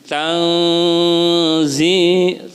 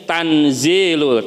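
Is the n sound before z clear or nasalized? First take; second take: nasalized; clear. First: The n is hidden with a nasal hum. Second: The n is pronounced fully and clearly. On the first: The speaker calls it right. "Ini harus dibaca samar, ikhfa, ada dengungnya" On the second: The speaker calls it wrong. "Tidak boleh dibaca gini"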